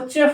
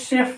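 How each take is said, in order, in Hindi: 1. इस शब्द की शुरुआत 'ch' ध्वनि से होती है। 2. इस शब्द की शुरुआत 'sh' ध्वनि से होती है। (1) "इसको चेफ नहीं पढ़ते" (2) "इसको शेफ पढ़ते हैं"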